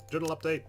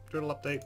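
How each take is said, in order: Both takes have the same delivery.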